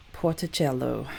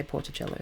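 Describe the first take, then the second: First: Light Italian lilt, falling at the end; slightly Italian accent. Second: Said in the usual way. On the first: Real, not acted. Host introducing the Bolivian town, slightly Italian accent. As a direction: give it a hint of Italian accent. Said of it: "with a slightly Italian accent". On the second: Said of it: "I'm just gonna say Portacello".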